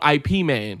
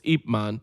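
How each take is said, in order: First: The first part is spelled out as two letters. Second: The first part is said as one short syllable. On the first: The speaker calls it wrong. "that's how they pronounce it. It's wrong" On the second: The speaker calls it right. "It's Ip Man because that was his name"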